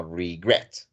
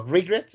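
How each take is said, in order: First: Regret said slowly as re-GRET; slow regret, accent on the final syllable; stress on second syllable. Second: Regret mis-stressed as RE-gret, weight on the first syllable; wrong syllable stressed. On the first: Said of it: "el acento va en la segunda sílaba". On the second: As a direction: show the mistake: RE-gret for regret. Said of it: "sino regret". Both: Shown as a demonstration.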